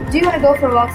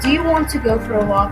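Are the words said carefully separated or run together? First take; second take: run together; separated. First: The words are reduced and run together. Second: Each word is said fully and separately. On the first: The speaker sounds like a native speaker. The speaker calls it right. "Sounds closer to being a native speaker" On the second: The speaker sounds like a learner. The speaker calls it wrong. "Sounds as if you just already learned in English"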